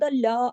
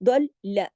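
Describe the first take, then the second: First: The final vowel is stretched long. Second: The final vowel is kept short. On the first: The speaker calls it wrong. "खींच के दल ला आगे आ की आवाज नहीं लगानी" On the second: The speaker calls it right. "लाम की आवाज दो दफा सख्ती से आए"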